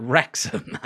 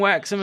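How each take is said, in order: First: Said in the usual way. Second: "Wrexham" with a W for the R; slipped R. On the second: Real, not acted. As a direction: say "Wrexham" as "Wexham", the R softened to W. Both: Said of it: "Why'd I say Wrexham like that?".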